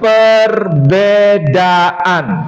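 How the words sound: The middle consonant is a 'd' sound. This is how Indonesians say it. "Kalau kita menyebutkan perbedaan"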